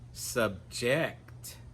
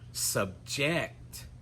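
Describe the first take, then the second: First: The stress is on the last syllable. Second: The same.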